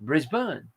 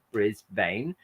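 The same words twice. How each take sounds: First: "Brisbane" with a weak ending, BRIS-bun; "Brisbane" said with a schwa, "bun" not "bane"; local pronunciation. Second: "Brisbane" ending in "bane", as spelled; "Brisbane" with a long "ay", bris-BANE; American reading. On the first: Telling chat how Australians say it, BRIS-bun. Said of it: "saying it like the French would read it". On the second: Showing viewers the American reading, bris-BANE. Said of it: "from an American viewpoint, it should be". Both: Shown as a demonstration.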